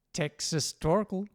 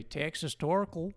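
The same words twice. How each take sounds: First: Texas Torkel. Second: Texas Torkel drawn out in an American accent; overpronounced American Texas Torkel. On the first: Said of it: "Americans have a particular way of, you know, overpronouncing words". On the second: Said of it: "overpronouncing words". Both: Shown as a demonstration.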